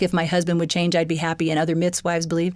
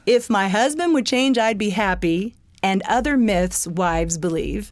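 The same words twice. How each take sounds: First: The title is said at normal speed. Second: The title is said more slowly.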